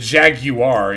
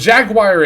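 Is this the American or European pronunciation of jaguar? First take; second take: European; American. First: It is said with a European pronunciation. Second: It is said with an American pronunciation. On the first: "I think the European pronunciation" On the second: "is the U S pronunciation"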